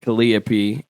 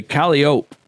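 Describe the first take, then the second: First: "Calliope" with a sounded final pee; "Calliope" stressed on the second syllable, ending -pee; Calliope as kuh-LIE-uh-pee. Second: "Calliope" ending in -ope, silent final e; "Calliope" rhyming its end with rope; Calliope as KAL-ee-ope. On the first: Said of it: "is another name for it". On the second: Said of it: "depending on how you wanna pronounce it". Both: Shown as a demonstration.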